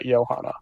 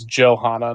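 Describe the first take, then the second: First: The name is pronounced the German way. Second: The name is pronounced the French way. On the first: The speaker calls it wrong. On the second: The speaker calls it right. "it's pronounced the French way"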